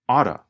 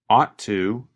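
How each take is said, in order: First: The words blend into a reduced form. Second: The T is pronounced clearly and separately.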